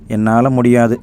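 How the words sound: It sounds like a sorry, helpless inability.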